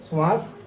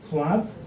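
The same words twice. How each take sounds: The two takes are said the same way.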